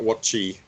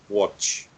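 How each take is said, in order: First: The word ends with an added vowel sound. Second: The word ends cleanly without an added vowel. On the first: The speaker calls it wrong. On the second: The speaker calls it right.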